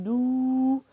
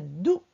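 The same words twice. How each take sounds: First: "دو" with the vowel stretched long; drawn-out vowel. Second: "دو" cut short, not stretched; short vowel. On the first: Teacher showing what she did not say, "دو" drawn out. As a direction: hold the "ou" of "دو" on a level pitch. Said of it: "معلمة لم تقل دو". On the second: Teacher showing what she did say, "دو" kept short. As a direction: say just a brief "دو". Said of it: "قالت دو فقط". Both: Shown as a demonstration.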